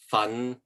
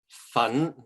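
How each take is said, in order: First: The syllable carries Cantonese tone five. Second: The syllable carries Cantonese tone two. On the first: It means to work hard. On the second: It means powder.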